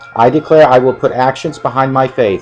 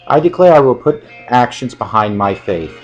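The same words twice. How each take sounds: First: It is read at a normal, quicker pace. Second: It is read slowly and deliberately.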